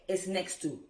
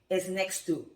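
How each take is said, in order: Both takes have the same delivery.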